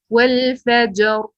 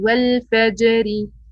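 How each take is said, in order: First: The phrase ends on the r with no vowel. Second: The final r is followed by a short i. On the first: The reciter stops at this word. "But stopping it is" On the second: The reciter continues without stopping. "if you didn't stop and pronounce it with kasra"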